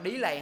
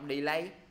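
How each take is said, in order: First: The stress is on the first syllable. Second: The stress is on the second syllable. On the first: The speaker calls it wrong. "Dạ nhấn âm nhất" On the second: The speaker calls it right. "Âm 2"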